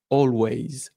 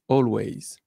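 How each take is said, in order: Both takes have the same delivery.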